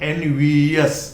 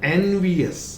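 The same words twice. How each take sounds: First: The ending sounds like 'yes'. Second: The ending sounds like 'us'. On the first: The speaker calls it wrong. "not envious, no yes" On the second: The speaker calls it right. "Then envious"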